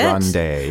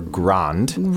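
First: The word ends with an audible final vowel. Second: The word ends on the d, no final vowel. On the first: The speaker calls it right. "We say that E at the end of it" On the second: The speaker calls it wrong. "It's not pronounced grand or grand"

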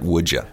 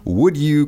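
First: The words blend, with you reduced to ya. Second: Both words are said fully and separately.

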